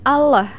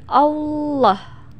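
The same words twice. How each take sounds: First: Allah with a thin, light L; wrong thin lam. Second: Allah slowly, with a thick, dark L; right thick lam. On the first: (Allah dengan lam tipis, cara yang salah) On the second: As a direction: say Allah slowly, the L heavy and the tongue raised. (Allah pelan dengan lam tebal, cara yang benar) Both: Shown as a demonstration. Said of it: "bukan Allah, tapi Allah".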